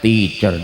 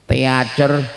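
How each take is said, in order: First: It is said with its normal English pronunciation. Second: It is sounded out as it is spelled. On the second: "tulisannya beda dengan pelafalannya"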